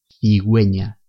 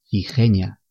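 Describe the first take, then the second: First: The middle syllable starts with a gw sound. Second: The middle syllable starts with a rough h. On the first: The speaker calls it right. "se pronuncian we y wi" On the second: The speaker calls it wrong. "Si no ponemos ni la diéresis ni la U, leemos cigeña"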